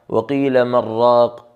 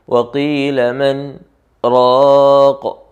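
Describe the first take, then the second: First: It is said without a pause after 'man'. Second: There is a brief pause after 'man'.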